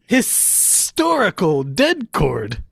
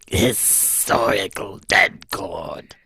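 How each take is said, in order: First: It is said in his normal voice. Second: It is said in a Cobra Commander voice.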